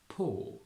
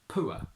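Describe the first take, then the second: First: The vowel is a single long o sound. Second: The vowel glides into a final open vowel. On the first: "we simply pronounce it as O" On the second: "we keep it as a diphthong in Geordie"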